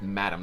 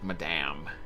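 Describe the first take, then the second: First: It is said as the plain English word. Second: It is said the French way. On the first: The speaker calls it right. "so they pronounce it Madam" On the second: The speaker calls it wrong. "not Madame"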